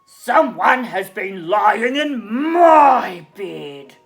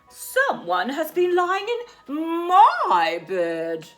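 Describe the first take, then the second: First: It is said in a great big voice. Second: It is said in a middle-sized voice.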